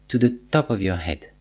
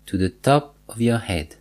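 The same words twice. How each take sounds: The two takes are said the same way.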